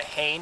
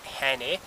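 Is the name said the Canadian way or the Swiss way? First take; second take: Canadian; Swiss. First: The name is said the Canadian way. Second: The name is said the Swiss way.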